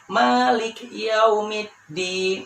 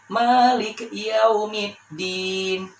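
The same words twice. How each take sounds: Both takes have the same delivery.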